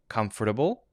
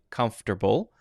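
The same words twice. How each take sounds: First: All syllables are kept, with a light D sound. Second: The middle syllable is dropped, like comf-ter-ble.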